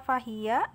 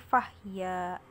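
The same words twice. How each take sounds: First: The h is followed by a vowel. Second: The h is said with no vowel after it.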